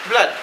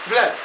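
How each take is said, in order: No difference in how they are said.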